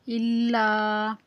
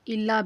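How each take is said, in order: First: इल्ला slowly recited with the final aa held; lengthened vowel. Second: Said in the usual way. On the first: Shown as a demonstration. Teacher demonstrating madd to learners, इल्ला with a long final aa. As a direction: stretch the last vowel of इल्ला. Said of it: "एक अलिफ के बराबर लंबा करेंगे".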